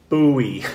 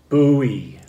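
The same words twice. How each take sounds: Both takes have the same delivery.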